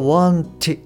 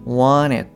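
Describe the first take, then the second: First: The t is pronounced fully and clearly. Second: The t is softened, not fully pronounced. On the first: The speaker calls it wrong. "wanted ではなくて" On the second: The speaker calls it right. "上顎でこう音を出してるっていうイメージですね"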